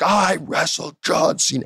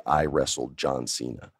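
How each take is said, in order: First: Higher, slow, cocky boast; arrogant take. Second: Said in the usual way. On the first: Retold or imitated. Wrestler delivering his promo line, arrogant and slow. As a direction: rub it in their faces. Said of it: "more of an arrogant take". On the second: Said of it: "I want you to feel that when you say".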